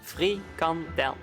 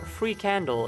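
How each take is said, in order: First: The word is said as one word, frikandel. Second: The word is said like English 'free candle'.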